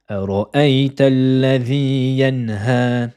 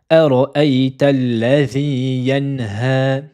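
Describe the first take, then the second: Both takes have the same delivery.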